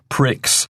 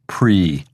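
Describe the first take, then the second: First: The word ends with a sounded ks. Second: The word ends in a vowel, x silent. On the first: The speaker calls it wrong. "but we don't say pricks" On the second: The speaker calls it right. "In English, we just say Grand Prix"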